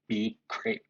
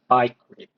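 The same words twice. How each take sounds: First: Bcrypt said as "bee-cript"; alternative pronunciation. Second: Bcrypt said as "bike-ript"; alternative pronunciation. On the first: Coder unsure of the library's name, bcrypt pronounced "bee-cript". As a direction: say bcrypt with an opening like the letter B. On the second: Coder unsure of the library's name, bcrypt pronounced "bike-ript". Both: Shown as a demonstration. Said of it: "I don't know how to pronounce that".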